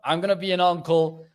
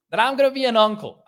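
First: Said in the usual way. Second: Bursting out the big news, high and loud; excited blurt of the news; excited reveal. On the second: Real, not acted. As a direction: announce it with a jump of joy.

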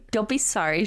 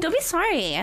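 First: Said in the usual way. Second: Much higher, laughing repeat. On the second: Real, not acted. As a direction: repeat it while cracking up. Repeats own line laughing.

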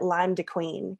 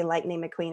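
First: Put-on Lime de Queen, a child's way of saying Lightning McQueen; toddler mispronunciation. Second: Said in the usual way. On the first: Mom quoting her son's name for the movie, lightly childlike. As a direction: say Lime de Queen like a little boy who can't manage the name. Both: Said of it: "he couldn't say Lightning McQueen".

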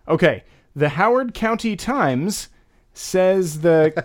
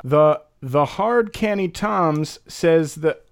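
First: Howard County Times said plainly; plain translation attempt; standard guess. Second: Slow the hard canny Toms; slow phonetic read; sounding it out. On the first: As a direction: try the plain words. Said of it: "I spoke too soon". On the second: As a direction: read the spelling slowly. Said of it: "I'm gonna guess this one right". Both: Shown as a demonstration.

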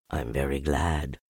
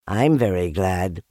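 First: Low, soft bear, gently pleased; quietly glad, in a low bear voice; happy Pooh. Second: Lightly voiced, eager small animal; happy Piglet. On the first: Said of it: "said Pooh happily". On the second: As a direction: chime in gladly, lighter than a bear. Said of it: "said Piglet happily". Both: A narrator's reading.

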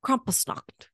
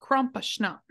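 First: Krampusnacht whispered. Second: Krampusnacht with a sh sound, Krampuschnacht; schnapps-like sh. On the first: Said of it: "whispered take". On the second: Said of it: "Why are you saying it like schnapps?". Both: Shown as a demonstration.

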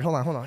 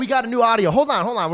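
First: Said in the usual way. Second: Loud excited "hold on", higher and louder; reining in the excitement with a shout. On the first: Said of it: "We're getting too excited". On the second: Real, not acted. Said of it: "we're getting too excited".

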